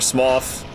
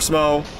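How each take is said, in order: First: The name ends with a th sound. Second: The name ends without a th sound. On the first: "Smoth, is the actual pronunciation" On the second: "I'm saying Smo"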